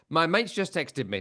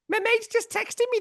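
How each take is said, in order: First: It is read in the speaker's normal voice. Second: It is read in an imitated character voice.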